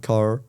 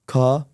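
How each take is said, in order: First: It is said in an American accent, final r. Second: It is said in a British accent, no final r. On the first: "دي امريكا" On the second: "دي بريطاني"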